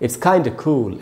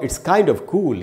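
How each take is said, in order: First: 'Kind of' is squeezed into one word, 'kinda'. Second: 'Kind of' is said as two full words.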